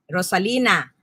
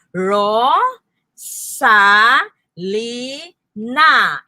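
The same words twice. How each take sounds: First: Said in the usual way. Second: "Ro", "sa", "li", "na" with a pause between each; syllable by syllable. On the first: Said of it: "meron sa salitang Rosalina". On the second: Shown as a demonstration. Teacher showing how to count syllables, "Ro, sa, li, na" separated. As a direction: break "Ro, sa, li, na" into separate beats. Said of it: "tingnan nyo".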